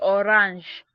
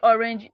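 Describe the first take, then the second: First: It is pronounced the French way. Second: It is pronounced the English way. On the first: "in French we say orange" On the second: "In English we say orange"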